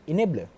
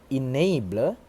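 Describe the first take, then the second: First: "enabler" with a plain short "e", "i-neb-ler"; monophthong. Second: "enabler" with a gliding "ay", "e-nay-bler"; correct diphthong. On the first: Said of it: "he pronounced it". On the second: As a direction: draw out the "ay" glide in "enabler". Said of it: "the correct pronunciation in the I P A". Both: Shown as a demonstration.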